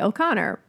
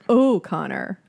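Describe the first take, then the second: First: The first O is a short, reduced vowel. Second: The first O sounds like the letter name. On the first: "I say O'Connor" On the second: "You're saying like you say the letter"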